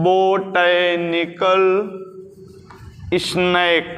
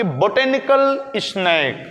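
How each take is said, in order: First: Low, syllable by syllable; slow dictation. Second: Said in the usual way. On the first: Shown as a demonstration. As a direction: draw out each word with a pause between. Repeats English term slowly. (धीमी, नीची आवाज़ में खींच कर लिखवाते हुए)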